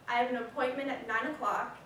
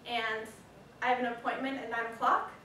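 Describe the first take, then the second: First: The voice falls at the end. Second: The voice rises at the end.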